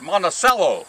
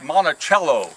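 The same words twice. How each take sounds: First: The name is said the local way. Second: The name is said the widespread, general way. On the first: "So you you go by the local pronunciation" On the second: "It's like Monticello uh, down at uh, Thomas Jefferson's home"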